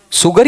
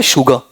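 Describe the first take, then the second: First: "शुगर" with a plain s and sounded r; s pronunciation. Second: "शुगर" with sh and a dropped final r; sh pronunciation. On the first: Teacher asking which is right, the s version. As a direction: say "शुगर" as "suggar". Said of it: "ये भी गलत है". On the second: Teacher asking which is right, the sh version. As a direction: say "शुगर" as "shuga". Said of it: "तो ये भी गलत है शुगर". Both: Shown as a demonstration.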